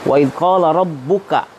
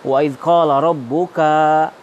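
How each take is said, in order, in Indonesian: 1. Vokal terakhir pada rabbuka pendek. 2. Vokal terakhir pada rabbuka dipanjangkan. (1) "kanya pendek" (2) "rabbuka dipanjangkan"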